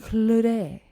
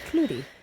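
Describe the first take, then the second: First: The name is said with a French accent. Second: The name is said with an English accent. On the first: "say it with a French accent" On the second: "That doesn't sound very French"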